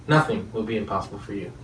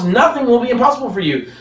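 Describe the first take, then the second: First: Soft and low, almost under the breath; hushed promise. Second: Higher, pressing question on nothing; emphatic challenge. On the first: Preacher to his listeners, soft and low. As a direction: let the promise settle quietly. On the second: Preacher challenging his listeners, higher and insistent. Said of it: "why all of a sudden when we look at ourselves". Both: Real, not acted.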